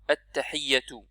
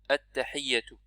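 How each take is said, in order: No difference in how they are said.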